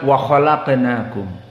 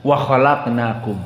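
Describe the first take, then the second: The two takes are said the same way.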